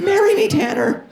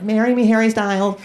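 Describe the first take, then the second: First: Swooning fangirl. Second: Put-on high squealing teen girl; a high swooning teenage fan; teen fangirl. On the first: Retold or imitated. Screaming fan at concert. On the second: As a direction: beg like a starstruck thirteen-year-old. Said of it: "thirteen-year-old girls and they're like".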